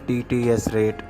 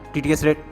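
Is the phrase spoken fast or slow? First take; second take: slow; fast. First: The phrase is spoken at a slow speed. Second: The phrase is spoken at a fast speed. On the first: "अगर इसको बिल्कुल कम कर दूंगा" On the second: "इसकी अगर मैं speed बढ़ा दूंगा, इसका स्पीच रेट बढ़ा दूंगा"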